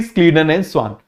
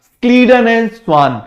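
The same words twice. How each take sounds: First: Said in the usual way. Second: Slow, deliberate names to repeat; teacher leading a slow choral repeat; repeat after me. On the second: Shown as a demonstration. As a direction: say Scleden and swan slowly so students echo it. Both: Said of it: "मेरे साथ बोलो जरा".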